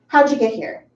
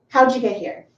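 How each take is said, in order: First: How did shrinks to howd, d and y make ja. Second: The same.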